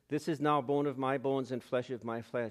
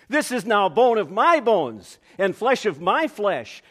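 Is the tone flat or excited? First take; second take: flat; excited. First: It is said in a flat, unexcited way. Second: It is said in an amazed, excited way.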